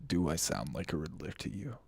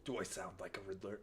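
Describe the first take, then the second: First: Low, sultry villain voice; sultry Riddler. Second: Low, quick villain purr; sultry Riddler. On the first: Streamer performs a villain voice for chat, sultry. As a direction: purr it like a seductive villain. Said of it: "sultry Riddler voice". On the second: Streamer testing a villain voice for chat, low purr. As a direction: drop low and tease like a villain. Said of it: "I tag my streams with voice acting". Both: Acted.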